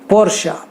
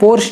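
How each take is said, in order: First: The name ends with an 'a' vowel. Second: The name ends on the 'sh' sound. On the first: The speaker calls it right. "आ की मात्रा वो एंड में रखते हैं" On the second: The speaker calls it wrong. "लेकिन पोर्श नहीं"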